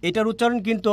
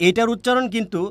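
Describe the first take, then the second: No difference in how they are said.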